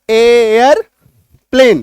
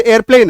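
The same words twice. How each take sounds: First: एयरप्लेन slowly as long एयर, pause, प्लेन; split into syllables. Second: Said in the usual way. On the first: Shown as a demonstration. Teacher showing two syllables in airplane, split into syllables. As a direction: stretch and separate the two halves of एयरप्लेन. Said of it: "प्लेन एक ही बार में". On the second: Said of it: "जैसे एयरप्लेन है".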